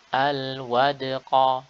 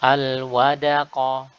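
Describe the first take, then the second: First: The d is bounced lightly with no vowel after it. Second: The d is followed by a full a vowel. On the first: The speaker calls it right. "huruf dal dia sukun dan qalqalah" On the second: The speaker calls it wrong. "menjadi dal fathah"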